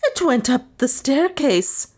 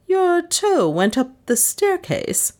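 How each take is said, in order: First: High-pitched frantic wail; wild cry. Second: Slow, high-pitched disbelief; incredulous echo. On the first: Maid reporting what she saw to mistress, wild cry. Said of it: "cried Lizzie wildly". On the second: Mistress questioning her hysterical maid, incredulous. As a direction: repeat it slowly, high and incredulous. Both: A narrator's reading.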